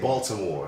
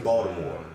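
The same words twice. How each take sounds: First: The T sound in the middle is pronounced. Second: The T sound in the middle is dropped. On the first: The speaker calls it wrong. "We don't say Baltimore" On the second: The speaker calls it right. "T's don't really exist"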